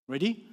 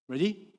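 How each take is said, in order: No difference in how they are said.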